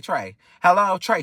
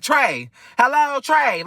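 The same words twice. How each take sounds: First: Said in the usual way. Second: High, slow, drawn-out "hello", stretching "Trey"; mimicking her call. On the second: Storyteller mimicking how the friend greeted him on the phone, slow and high. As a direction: drag out the greeting, pitched high and loud. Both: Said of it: "she ain't saying it like this".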